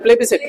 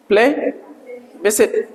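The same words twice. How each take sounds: First: "प्लेबिसिट" joined in one quick unbroken word; read together. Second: Slow, soft "प्लेबिसिट", pause after "प्ले"; split into parts. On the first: Teacher shows it is read together, "प्लेबिसिट" as one word. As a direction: run "प्लेबिसिट" together without any gap. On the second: Teacher breaks the word down for students, slowly splitting "प्लेबिसिट". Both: Shown as a demonstration. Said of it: "एक साथ में पढ़ा जाएगा".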